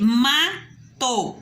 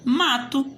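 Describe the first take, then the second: First: "mato" split MA... TO with a pause; two detached syllables, ma / to. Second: Said in the usual way. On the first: Shown as a demonstration. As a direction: dictate "mato" slowly in two separate beats. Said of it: "Eu posso pegar o ma de novo". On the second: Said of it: "eu vou formar a palavrinha mato".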